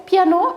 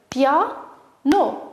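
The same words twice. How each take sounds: First: Said in the usual way. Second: "Piano" in two separated beats, pia, no; split into syllables. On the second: Shown as a demonstration. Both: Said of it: "découper syllabiquement les mots".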